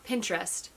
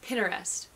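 First: No vowel is heard between the t and r. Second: A vowel is heard between the t and r. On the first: The speaker calls it wrong. "So it's not Pinterest" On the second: The speaker calls it right. "There's an E in between the T and the R"

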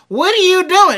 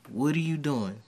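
First: It is said in a harsh, demanding voice. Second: It is said in a soft, flirtatious voice.

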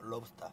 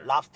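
First: The word is said in a longer, English-like form. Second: The word is said in the short Korean form. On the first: The speaker calls it right. "발음 똑바로 해" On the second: The speaker calls it wrong. "랍스터 아니야?"

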